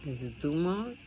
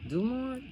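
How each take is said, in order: First: Said in the usual way. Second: "Dumont?" asked much higher with a sharp rise; unsure question. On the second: Real, not acted. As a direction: pitch "Dumont?" up high, doubting.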